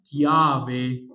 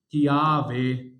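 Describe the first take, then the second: No difference in how they are said.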